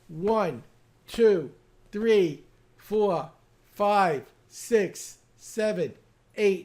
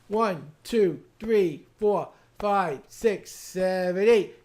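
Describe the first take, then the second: First: The count is at a normal, steady pace. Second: The count is somewhat faster than before.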